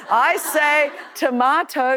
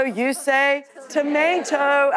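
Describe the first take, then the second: First: "tomato" with an Australian broad ah, to-MAH-to; Aussie "tomato". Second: "tomato" with an American ay, to-MAY-to. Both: Shown as a demonstration.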